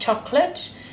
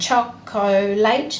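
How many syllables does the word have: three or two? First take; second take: two; three. First: The word is said with two syllables. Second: The word is said with three syllables. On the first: This is everyday speech. "not just chocolate" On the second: This is a careful voice used to recall the spelling. "you're saying an extra syllable when you're using your spelling voice"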